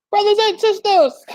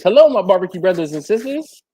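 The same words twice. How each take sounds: First: High, louder preacher echo; mock preacher. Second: Said in the usual way. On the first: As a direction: ham up a revival call. Echoing viewer's greeting, preacher-like.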